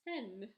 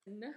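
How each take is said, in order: First: Said in the usual way. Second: "N" as short nuh; isolated "nuh" for "N"; letter sound demo. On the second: Shown as a demonstration. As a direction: say "N" as the first sound of nest. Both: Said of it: "makes a N sound".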